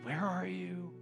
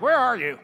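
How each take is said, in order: First: It is said in a gentle, welcoming tone. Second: It is said in an accusing, scolding tone.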